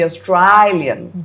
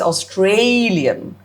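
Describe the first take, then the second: First: It is said in an Australian accent. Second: It is said in a neutral accent.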